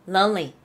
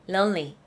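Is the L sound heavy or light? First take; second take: light; light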